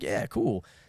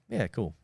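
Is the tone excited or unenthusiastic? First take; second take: excited; unenthusiastic. First: It is said with excitement. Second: It is said flatly, without enthusiasm.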